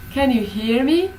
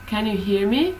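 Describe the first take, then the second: First: "Can you hear me?" with a high, clear rise on "me", a bit louder; strongly rising question. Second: "Can you hear me?" with a gentle rise on "me"; rising question. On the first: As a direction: lift "me" high and push it as a real question. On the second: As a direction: ask it, letting "me" lift slightly at the end. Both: Shown as a demonstration. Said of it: "my intonation really rises".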